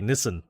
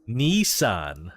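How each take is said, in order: First: It is said the Australian way. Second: It is said the American way.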